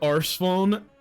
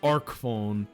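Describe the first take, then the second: First: The name begins with an 'arse' sound. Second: The name begins with an 'ark' sound. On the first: This is the older way of saying it. The speaker calls it wrong. "That's how you say it the old way" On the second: This is the official way of saying it. The speaker calls it right. "It's supposed to be the the arc phone"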